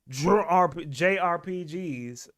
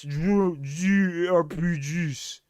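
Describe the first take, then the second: First: It is said in a plain English accent. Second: It is said in a put-on French accent.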